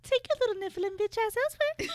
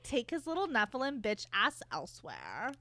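First: It is said in Missus Black's snooty voice. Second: It is said in a plain voice.

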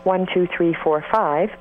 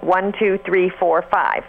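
First: The voice is relaxed, without pressed vocal folds. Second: The voice is pressed and tight at normal pitch. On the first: "I'm not pressing my vocal folds right now" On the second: "if I do the counting with a little bit of pressing, it would sound like"

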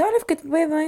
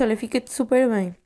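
First: It is said in a very sweet, kind tone. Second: It is said in a plain, neutral tone.

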